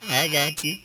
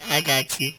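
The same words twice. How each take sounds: The two takes are said the same way.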